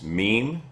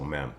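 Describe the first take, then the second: First: The vowel sounds like the one in 'see'. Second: The vowel sounds like the one in 'men'. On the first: "Did I say it right" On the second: "I like to say mem"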